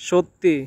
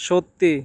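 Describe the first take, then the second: Both takes have the same delivery.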